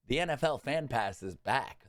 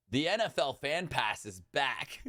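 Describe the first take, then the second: First: Said in the usual way. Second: Laughing through the N F L Fan Pass; half laugh, half wail at it; laughing disbelief. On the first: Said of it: "The next day". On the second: Real, not acted. Fan laughing at the NFL Fan Pass return, laughing disbelief. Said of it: "literally the next day".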